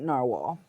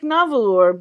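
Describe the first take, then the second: First: The name is said like the English word narwhal. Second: The name is said with Icelandic-style syllables. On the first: "they keep insisting they're going to pronounce it Narwhal" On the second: "the Icelandic Navalur"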